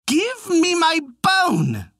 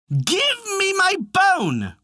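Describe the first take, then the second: First: It is said more loudly. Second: It is said most loudly.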